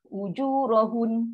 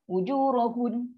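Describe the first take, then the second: Both takes have the same delivery.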